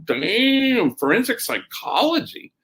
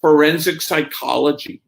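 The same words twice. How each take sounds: First: Impressed amazement. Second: Matter-of-fact, no hesitation on "Forensic psychology"; very quick answer. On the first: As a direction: echo it back, mock-awed and high-pitched. Acts out his impressed reaction. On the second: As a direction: imitate a student's ready, prompt reply. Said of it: "she was very quick". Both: Retold or imitated.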